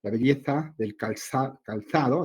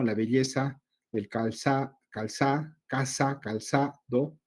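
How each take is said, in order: First: Belleza and calzado with a lisped th, /beʎeθa/, /kalθaðo/; Castilian accent, z as th in calzado; Spanish z sound. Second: Calzado with an s sound, /kalsado/; Latin American seseo. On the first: Teacher showing the Spain pronunciation of calzado, Castilian accent. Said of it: "en España es muy notorio el sonido de la Z". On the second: Teacher showing how Latinos say calzado, z as s. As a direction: say the z in calzado as a plain s. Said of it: "pero la articulamos así". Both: Shown as a demonstration.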